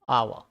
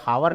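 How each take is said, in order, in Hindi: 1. शब्द सीधे एक स्वर (vowel) से शुरू होता है। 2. शब्द की शुरुआत h की आवाज़ से होती है। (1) "ये आवर बोलते हैं" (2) "ये हावर नहीं होता"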